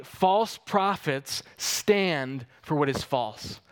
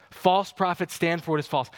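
First: Slow, weighty stress on "false" both times; slow emphatic. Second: Said in the usual way. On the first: Shown as a demonstration. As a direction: lean hard on each "false". Preacher repeats key line.

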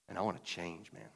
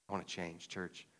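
First: Said in the usual way. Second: Softer, earnest echo of the line; quieter repeat. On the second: Real, not acted. Pastor repeating his confession to the church, softly. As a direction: drop the voice and mean it.

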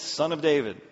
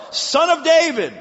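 First: Said in the usual way. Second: High loud call of "Son of David"; crying out. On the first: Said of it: "Second time he said". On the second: Acted. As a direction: call out with all your strength. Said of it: "He cried out all the more".

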